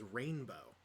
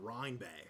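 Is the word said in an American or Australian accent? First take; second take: American; Australian. First: It is said in a plain, neutral accent. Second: It is said in an exaggerated Australian accent. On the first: "how the actual word is" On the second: "in a very very stereotypical Australian accent, it turns into Rhine-Bay"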